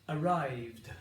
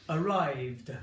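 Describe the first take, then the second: No difference in how they are said.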